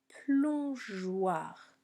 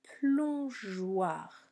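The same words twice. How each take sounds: First: The G sounds soft, like a J. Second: The same.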